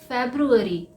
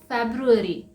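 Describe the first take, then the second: Both takes have the same delivery.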